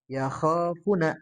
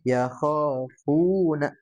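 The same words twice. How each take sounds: First: The vowel in funa is held short. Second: The vowel in funa is held long. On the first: The speaker calls it wrong. "tadi agak kurang panjang sedikit" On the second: The speaker calls it right.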